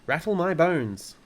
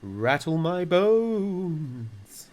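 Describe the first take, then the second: First: High, loud spooky parrot voice. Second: Very drawn-out, high ghostly wail; spooky voice. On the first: Parrot shows Fred and Matilda its phrase, spooky mimicry. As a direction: parrot doing a ghostly line. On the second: Parrot imitates a ghost for the children, long spooky wail. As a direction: stretch it out slowly like a spook, swelling loud. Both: A narrator's reading. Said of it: "giving a wonderful imitation of a spooky voice".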